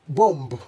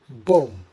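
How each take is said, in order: First: The final b sound is pronounced. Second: The final b sound is silent. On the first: The speaker calls it wrong. "pronouncing this as bomb will make this erroneous" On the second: The speaker calls it right. "the correct way to pronounce this is bomb"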